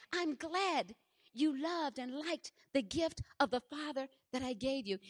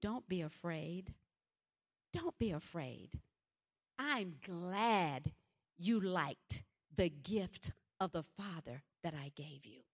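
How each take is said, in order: First: Amazed retelling. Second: Low, soft, slow fatherly reassurance; comforting voice of God. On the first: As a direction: repeat the words in wonder. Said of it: "Can you believe that?". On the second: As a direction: speak gently as God calming a frightened child. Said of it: "a voice said to me". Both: Retold or imitated.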